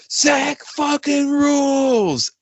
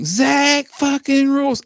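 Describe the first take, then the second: First: Stretched high mock yell from the control room; imitated yell. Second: Drawn-out Southern country twang, pitched way up. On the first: Producer yelling to the guitarist, imitated in a long high yell. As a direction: call it out long and high like across a studio. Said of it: "Andrew yelled from the fucking control room". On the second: Shown as a demonstration. Podcaster demoing the lyric in a Southern country twang. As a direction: stretch it slow with a high Southern drawl. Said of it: "if you say it in a country twang".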